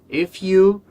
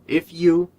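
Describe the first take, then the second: Both takes have the same delivery.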